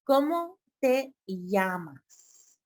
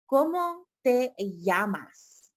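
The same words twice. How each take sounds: First: ¿Cómo te llamas? said slowly again; slow teaching. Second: ¿Cómo te llamas? said slowly, clearly; slow teaching. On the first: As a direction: model it slowly once more. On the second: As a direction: spell it out slowly for learners. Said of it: "You're gonna say". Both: Shown as a demonstration.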